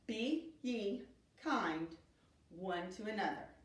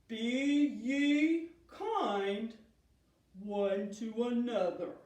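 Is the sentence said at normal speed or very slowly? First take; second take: normal; very slowly. First: It is said at a normal speed. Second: It is said in a very slow voice. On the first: "Let's say that again" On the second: "let's say it in a super slow motion voice"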